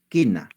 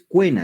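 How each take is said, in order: First: No 'u' sound is heard after the k. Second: A 'u' sound is heard after the k. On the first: The speaker calls it right. "dices quena. ¿Suena la U? No" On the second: The speaker calls it wrong. "no dices cuena"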